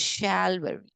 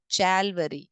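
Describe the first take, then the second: First: The word begins with an sh sound. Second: The word begins with a ch sound. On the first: The speaker calls it right. "C H is making over here sh sound" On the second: The speaker calls it wrong. "It is not Chalvary"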